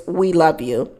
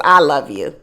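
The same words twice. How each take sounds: First: "We love you" with a light stress on love. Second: "I love you" with the weight on I, pitched low; stress on I. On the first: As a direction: lean gently on "love", letting it fall. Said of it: "what she says is". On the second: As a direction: lean on "I", then let it fall lower. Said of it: "what she really wants to say is". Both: Retold or imitated.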